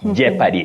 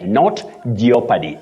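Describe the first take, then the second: First: The O in the first syllable is silent. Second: The O in the first syllable is pronounced. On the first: The speaker calls it right. "the O in that word is silent, not pronounced" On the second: The speaker calls it wrong. "Many people innocently say jeopardy"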